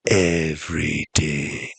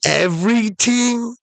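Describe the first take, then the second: First: Very low, slow confirmation; mysterious genie. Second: Very high, incredulous rising question; amazed question. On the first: Genie confirming all to castaway, slow low voice. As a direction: drop deep and stretch every syllable. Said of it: "And the genie goes". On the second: Castaway questioning the genie's offer, very high amazed voice. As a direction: squeak it up in disbelief. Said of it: "And the guy's like". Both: Acted.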